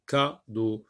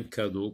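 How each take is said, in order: First: "cadeau" split after the first syllable. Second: Said in the usual way. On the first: Shown as a demonstration. Teacher showing the first sound to learners, "cadeau" split in two. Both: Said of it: "C'est avec A".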